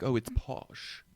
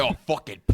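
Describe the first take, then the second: First: Wrong way, soft. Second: Higher and louder British exclamation; hammed-up British slang; right way, punchy. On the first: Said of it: "they don't say it like that". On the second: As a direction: toss it off like a keen Londoner. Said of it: "They'll be like". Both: Shown as a demonstration.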